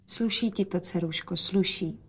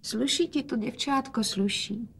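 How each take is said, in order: First: Quiet. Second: Softer, higher, tender-sounding praise; speaking quietly. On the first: Acted. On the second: A narrator's reading. The frail father quietly praises his daughter's dress. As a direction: hush it gently to your daughter. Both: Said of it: "hovořil otec tiše".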